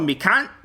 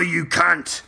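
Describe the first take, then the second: First: The pitch rises at the end. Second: The pitch falls at the end. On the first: It is said in a friendly way. "That's the friendly version. If it goes up" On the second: It is said as an insult. "when it's the mean version ... It's down"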